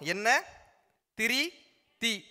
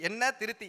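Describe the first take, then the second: First: The three words are said slowly and separately. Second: The three words are said fast and run together.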